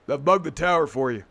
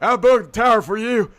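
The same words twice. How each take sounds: First: It is done in a plain deep voice. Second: It is done as a character impression voice. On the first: "we ended up doing like a just a deep voice" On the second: "we started with like the Arthur Morgan like"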